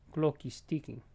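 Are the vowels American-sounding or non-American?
non-American. The vowels are said without American accent features. "Now you take it off and it sounds like this"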